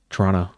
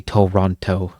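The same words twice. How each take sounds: First: Toronto clipped to "Tronno", second t dropped; Toronto said lazily as two quick syllables; local pronunciation. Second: Toronto with every syllable clear, both t's sounded; Toronto spelled out in full, as written; full outsider pronunciation. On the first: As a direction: swallow the middle of Toronto like a local. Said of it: "you stop saying the name properly". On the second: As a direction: say Toronto carefully, tor-ON-toe. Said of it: "saying the name properly". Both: Shown as a demonstration.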